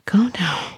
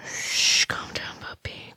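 First: Said in the usual way. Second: Very soft hushing whisper; soothing whisper. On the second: Acted. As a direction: hush them under your breath. Hushes the struggling listener.

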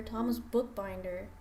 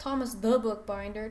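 First: Name said as "Thomas Bookbinder" with no "the"; plain "Thomas Bookbinder", stress on "Thomas"; corrected name. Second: Name said as "Thomas the Bookbinder" with "the" in it; "Thomas the Bookbinder", stressing "the"; wrong name. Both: Shown as a demonstration. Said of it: "Not Thomas the Bookbinder".

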